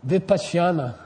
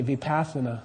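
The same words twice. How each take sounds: First: Vipassana said as vi-PAHSH-ya-na; Sanskrit pronunciation. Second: Vipassana said as vi-PASS-a-na, with a plain s; corrupted pronunciation. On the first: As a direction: say Vipassana with a "shy" glide, "vi-pahsh-yah-na". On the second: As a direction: say Vipassana softer and lower, as "vi-pass-uh-na". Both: Shown as a demonstration. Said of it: "If you wanna corrupt it, you could say".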